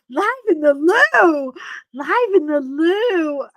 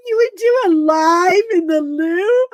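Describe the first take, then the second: First: Slower, drawn-out laughing repeat; slow laughing echo. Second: High loud laughing question. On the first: Repeating the friend's loo idea, slowly and laughing. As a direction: savour the words, still giggling. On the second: Asking the friend about the loo live, laughing. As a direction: cry it out amazed. First take of repeated quote. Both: Retold or imitated.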